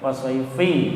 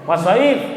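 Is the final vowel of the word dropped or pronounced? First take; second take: pronounced; dropped. First: The word ends with a final i vowel. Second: The word ends without a final vowel. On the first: The speaker calls it wrong. "dia nirukannya was-shaifi" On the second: The speaker calls it right. "Mergo diwaqaf karena berhenti cara bacanya menjadi was-shaif"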